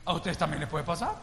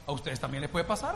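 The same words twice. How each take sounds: First: Repeated warning. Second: Earnest warning. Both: Retold or imitated. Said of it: "le digo".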